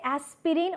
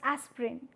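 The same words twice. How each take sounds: First: Every vowel is pronounced, giving three syllables. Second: The middle vowel is dropped, giving two syllables. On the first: "do you say aspirin" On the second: "this E sound is being omitted here"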